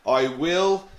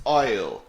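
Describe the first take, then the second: First: "I will" as two separate full words; uncontracted form. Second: "I'll" merged into one falling syllable; contracted form. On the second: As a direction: run I and will together as "I'll". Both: Shown as a demonstration.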